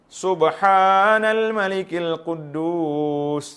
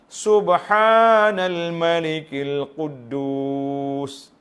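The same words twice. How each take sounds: First: It is said plainly, without drawing out. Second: It is said with a long, drawn-out voice.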